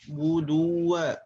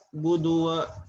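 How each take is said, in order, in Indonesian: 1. Bunyi w penuh, bibir dimonyongkan ke depan. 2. Bunyi w lemah, bibir hampir tidak membulat. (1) "Maka monyongkan terlebih dahulu" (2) "ini tidak sempurna"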